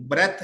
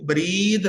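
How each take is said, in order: First: "breath" with a short e vowel. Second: "breathe" with a stretched ee vowel; breathe, long ee. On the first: Teacher contrasts the noun without E, short-e breath. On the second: Teacher repeats the correct pronunciation for students, long-ee breathe. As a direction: draw out the ee in breathe. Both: Shown as a demonstration. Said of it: "इसकी correct pronunciation".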